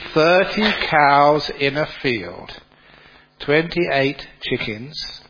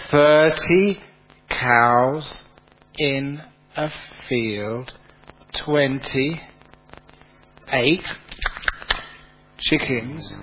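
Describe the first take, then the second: First: The sentence is spoken at a normal pace. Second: The sentence is spoken very slowly.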